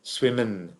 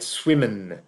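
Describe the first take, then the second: Both takes have the same delivery.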